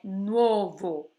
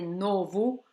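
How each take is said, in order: First: The first syllable has a 'u' glide, 'nuo'. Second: The first syllable is a plain 'no'. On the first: The speaker calls it right. "o correto é colocar esse U no meio" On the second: The speaker calls it wrong. "se escapar de você, de você dizer novo"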